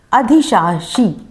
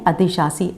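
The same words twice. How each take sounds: First: अधिशासी said slowly with both श sounds; common mistake. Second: अधिशासी said with श then स; right pronunciation; correct form. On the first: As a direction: slowly give the wrong अधिशासी with two श. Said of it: "बहुत से लोग बोल देते हैं". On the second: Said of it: "शब्द क्या सही है?". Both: Shown as a demonstration.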